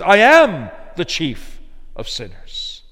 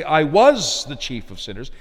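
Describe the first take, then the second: First: "am" hit firmly and louder, slow falling line; slow, firm stress on "am". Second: "was" lifted and stressed as the wrong reading; rising weight on "was". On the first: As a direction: press down on "am" as the true reading. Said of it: "He says". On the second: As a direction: stress "was" to show the version Paul does not say. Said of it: "You notice he doesn't say". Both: Shown as a demonstration.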